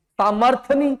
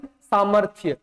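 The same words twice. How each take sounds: First: सामर्थ्य without the y, as सामर्थ; सामर्थ्य cut down to सा-मर्-थ; wrong pronunciation. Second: सामर्थ्य with a clear य glide at the end; lower, falling सा-मर्-थ्य; correct pronunciation. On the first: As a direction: drop the य glide from सामर्थ्य. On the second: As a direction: sound the y in सामर्थ्य. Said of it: "सामर्थ्य नहीं". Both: Shown as a demonstration.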